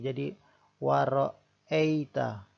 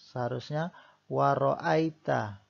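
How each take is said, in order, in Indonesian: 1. Vokal di tengah terdengar seperti 'e' biasa. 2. Vokal di tengah terdengar seperti diftong 'ai'. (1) "terkadang kita membacanya ai ya, bukan i tapi e"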